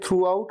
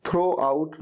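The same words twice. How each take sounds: First: "throughout" with oo in the first part; correct throughout. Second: "throw out" with an o, drawn out slowly; mispronounced throughout. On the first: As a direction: say "throughout" as throo-out. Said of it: "इसे throughout कहा जाएगा". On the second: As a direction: say "throw out" with oh instead of oo. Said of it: "throw out नहीं". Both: Shown as a demonstration.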